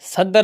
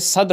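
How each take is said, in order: First: A vowel is heard between d and r. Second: No vowel is heard between d and r. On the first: The speaker calls it wrong. "नहीं होता" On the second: The speaker calls it right. "होता है"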